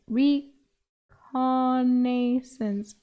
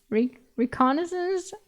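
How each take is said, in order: First: Reconnaissance drawn out slowly as re-KON-ay-sance; sounding out reconnaissance syllable by syllable; slow struggling pronunciation. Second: Reconnaissance tried again, rising, higher and unsure; stumbling retry of reconnaissance. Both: Shown as a demonstration. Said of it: "English word that I cannot say".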